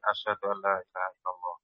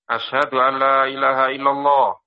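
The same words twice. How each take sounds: First: The phrase is said softly. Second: The phrase is said loudly.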